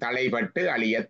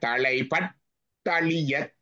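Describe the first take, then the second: First: The two words are said separately. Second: The two words are merged into one word. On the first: The words are split to make the meaning easy to understand. "பொருள் சொல்றதுக்கு இது இருக்கு" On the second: This keeps the rhythm of the verse when reading it. "ஆனா படிக்கக்குள்ள தலைப்பட்டழியத் அப்படிதான்"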